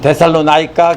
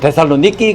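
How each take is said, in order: First: It is said the American way, ending in 'naika'. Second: It is said the Greek way, ending in 'niki'. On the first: "미국 사람들은 데살로나이카 그러는데요" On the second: "그리스 사람들은 반드시 데살로니키 그럽니다"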